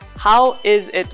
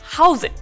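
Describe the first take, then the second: First: Every word is said separately and in full. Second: The words run together, with 'is' contracted. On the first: The speaker calls it wrong. "もう長すぎてHow is it going? って言う人ってあんまりいない" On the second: The speaker calls it right. "全部つなげちゃってHow's it?"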